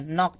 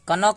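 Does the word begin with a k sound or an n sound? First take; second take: n sound; k sound. First: The word begins with an n sound. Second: The word begins with a k sound. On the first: The speaker calls it right. "नॉक पढ़ते हैं इसको" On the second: The speaker calls it wrong. "कनॉक नहीं पढ़ते हैं"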